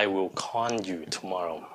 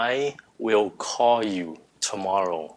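First: Call is said with an added n sound. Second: Call is said with a plain o sound. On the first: The speaker calls it wrong. "Chứ không phải là" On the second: The speaker calls it right. "Ví dụ"

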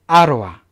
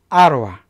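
Both takes have the same delivery.

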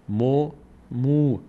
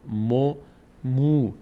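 The two takes are said the same way.

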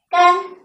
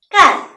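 First: The syllable is said with a high level tone. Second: The syllable is said with a falling tone. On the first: "干树枝" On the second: "它还可以读作干 … 树干"

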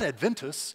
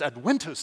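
First: The middle consonant is sounded like English V. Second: The middle consonant is sounded like English W. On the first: The speaker calls it wrong. "not adventus" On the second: The speaker calls it right. "the V is pronounced as a W"

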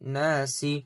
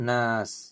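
First: The word ends with a short i vowel. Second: The word ends on a bare s sound. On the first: The recitation continues without stopping. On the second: The reciter stops at this word.

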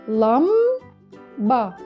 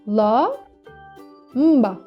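First: It is split into lam and ba. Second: It is split into la and mba. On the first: The speaker calls it right. "Ne deriz?" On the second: The speaker calls it wrong. "Buradaki m sesi birinci hecede olmalıydı"

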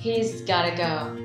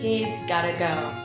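First: The words are shortened and run together quickly. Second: The same.

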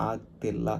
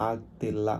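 No difference in how they are said.

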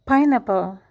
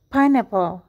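No difference in how they are said.

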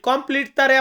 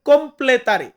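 First: The word begins like the English word 'complete'. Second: The word begins with a short 'comple' sound. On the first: The speaker calls it wrong. "কমপ্লিট তারে আবার বলবেন না" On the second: The speaker calls it right. "বলবেন কমপ্লেতারে"

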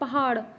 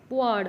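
First: The middle h sound is pronounced. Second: The middle h sound is dropped.

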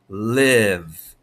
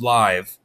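First: The vowel is a short 'ih' sound. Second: The vowel is a long 'eye' sound. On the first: The speaker calls it right. "Let's make it a short E" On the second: The speaker calls it wrong. "There's a silent E that should say I"

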